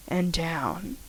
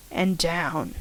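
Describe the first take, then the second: No difference in how they are said.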